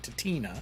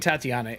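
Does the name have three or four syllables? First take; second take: three; four. First: The name is said with three syllables. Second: The name is said with four syllables. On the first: The speaker calls it right. "It's Tatina" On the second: The speaker calls it wrong. "I've been saying Tatiana"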